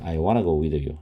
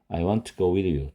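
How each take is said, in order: First: It is reduced to wanna with no t. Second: The two t sounds merge into one t. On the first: "또는 ... 그렇게 발음해도 됩니다" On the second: "T가 두 개일 때는 한 개만 발음합니다"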